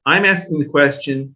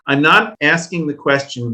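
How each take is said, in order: First: I'm ASKING the question, "asking" stressed; steady stress on "asking" as the answer. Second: I'm NOT asking, with a firm lean on "not"; weight the word "not" to rule the idea out; a firm "not" that sets up the contrast; stress on not. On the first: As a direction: land on "asking" to name your real question. Contrasts not asking with asking. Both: Real, not acted.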